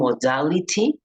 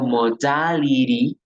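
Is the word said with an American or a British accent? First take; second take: British; American. First: The word is said with a British accent. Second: The word is said with an American accent. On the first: "estoy hablándolo con inglés británico" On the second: "estarías diciéndolo en inglés americano"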